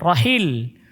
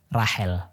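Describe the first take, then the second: First: The name is said with its Arabic pronunciation. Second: The name is said with its local pronunciation. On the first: This is how Arabs say the name. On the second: This is how local and Western people say the name. "Orang kita nyebutnya Rahel"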